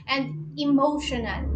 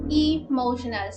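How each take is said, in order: First: "emotional" with a loud first E; stressed first syllable. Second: "emotional" again, louder on the first E; stressed first syllable. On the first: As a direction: make the E of "emotional" heard. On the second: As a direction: repeat "emotional" with the E pushed. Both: Shown as a demonstration. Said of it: "syllabically speaking".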